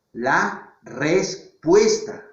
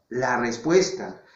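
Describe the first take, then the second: First: Drawn-out LA RESPUESTA, pausing between syllables. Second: Said in the usual way. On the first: Shown as a demonstration. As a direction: spell out "la respuesta" slowly in separate syllables. Profesor recalca la respuesta por sílabas. (la respuesta, lento y sílaba por sílaba)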